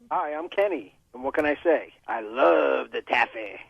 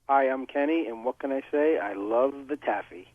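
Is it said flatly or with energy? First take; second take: with energy; flatly. First: It is said with lots of energy. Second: It is said flatly, with little energy.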